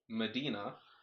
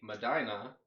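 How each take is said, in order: First: The name is pronounced the outsider way. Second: The name is pronounced the local way. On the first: This is how everyone elsewhere says it. "to the rest of the world, it's Medina" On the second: This is how people here say it. "today we're playing in lovely Medina"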